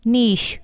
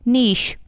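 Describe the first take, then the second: No difference in how they are said.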